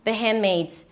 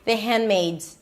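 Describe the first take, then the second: First: It is said fast with the D dropped. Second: The same.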